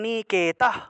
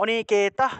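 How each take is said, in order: No difference in how they are said.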